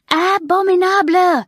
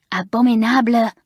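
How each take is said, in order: First: Abominable shrieked much higher and louder; raging louder still. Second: Loud raging cry of the word Abominable. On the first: Mamselle raging at the class, higher furious shriek. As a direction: top the last cry with a furious shriek of Abominable. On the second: Mamselle throwing the pincushion away, loud angry cry. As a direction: spit out Abominable in fury. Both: A narrator's reading. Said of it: "she raged".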